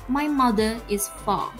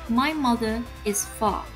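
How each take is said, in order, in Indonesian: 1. Bunyi R dihilangkan, non-rhotic. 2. Bunyi R dihilangkan, non-rhotic.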